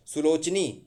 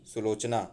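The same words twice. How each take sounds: First: सुलोचनी ending in EE; wrong form सुलोचनी. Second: सुलोचना ending in AA, lower; correct form सुलोचना. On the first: Teacher shows the last error, mistaken form. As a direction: say सुलोचनी, su-loch-nee. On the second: Teacher corrects सुलोचनी, lower correct form. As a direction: say सुलोचना, su-loch-naa. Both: Shown as a demonstration. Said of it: "नहीं".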